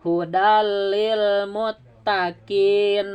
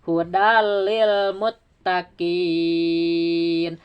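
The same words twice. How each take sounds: First: The final vowel is short and runs straight on. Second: The final vowel is held long before stopping. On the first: The reading continues into the next word. "Misalnya disambung" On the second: The reading stops at this word. "Bagaimana kalau diwakaf?"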